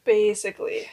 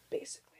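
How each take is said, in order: First: Said in the usual way. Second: Quiet echo; almost under the breath; barely audible. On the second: Shown as a demonstration.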